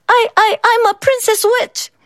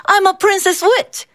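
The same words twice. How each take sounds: First: Put-on high, timid, stammering girl; soft squeaky voice. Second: Put-on high, sweet child voice; proud little princess witch; little girl voice. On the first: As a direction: squeak it out, scared and small. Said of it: "Megan's voice was soft and squeaky". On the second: A narrator's reading. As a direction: chirp it like a small girl in costume. Child's costume answer, high voice.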